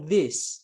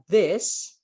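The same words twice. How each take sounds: First: "this" with an ee-like I, as in "these"; I vowel. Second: "this" with an E-like vowel, close to "des"; short E vowel. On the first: Teacher showing students the word for many near things, "this" said like "dees". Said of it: "bacanya pakai I". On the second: Teacher showing students the word for one near thing, "this" said like "des". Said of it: "bacanya pakai E". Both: Shown as a demonstration.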